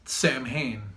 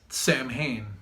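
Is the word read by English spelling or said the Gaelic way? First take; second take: English spelling; English spelling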